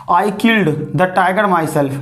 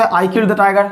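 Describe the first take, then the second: First: Slow, weight on "killed" and "myself"; slow deliberate "I killed the tiger myself"; emphatic version. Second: Said in the usual way. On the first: Shown as a demonstration. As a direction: lean into "killed", land on "myself". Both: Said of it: "ऐसे भी तो बोल सकते थे".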